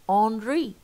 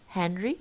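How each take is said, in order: First: The initial h sound is dropped. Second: The initial h sound is pronounced.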